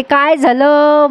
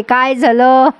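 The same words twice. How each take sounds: First: Lightly voiced old woman, drawn-out asking; Bayo's drawn-out question. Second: Said in the usual way. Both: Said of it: "बयोचा शब्द फार भारी आहे".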